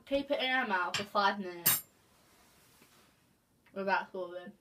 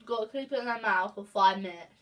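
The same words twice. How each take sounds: First: Muffled with chilies held in mouth; mouth full. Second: Talking around a mouthful of chilies; words muffled by food in mouth; mouth full. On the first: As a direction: speak through a full mouth. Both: Real, not acted. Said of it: "our mouths are burning".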